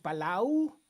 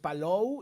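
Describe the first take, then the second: First: The last syllable sounds like 'lau'. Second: The last syllable sounds like 'lou'. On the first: The speaker calls it wrong. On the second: The speaker calls it right.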